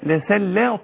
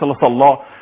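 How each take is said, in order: First: The s sound is plain and thin. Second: The s sound is heavy and emphatic. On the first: The speaker calls it right. "لسلى لسلى طاء هكذا" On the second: The speaker calls it wrong. "مش ليس لصلى"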